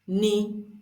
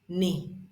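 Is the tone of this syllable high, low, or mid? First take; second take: mid; low. First: The syllable is said on a mid pitch. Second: The syllable is said on a low pitch. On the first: "we have the middle tone" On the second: "This is the low tone"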